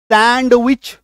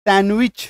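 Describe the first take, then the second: First: सैंडविच drawn out with ड heavily sounded; wrong pronunciation. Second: सैंडविच said as सैन-विच, no ड; correct pronunciation. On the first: Teacher shows what not to say, wrong pronunciation. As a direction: stress the D, सैंड-विच. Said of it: "नहीं बोलना". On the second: Teacher cuts the D, correct pronunciation. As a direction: drop the D in सैंडविच. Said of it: "तो डी को काटो". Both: Shown as a demonstration.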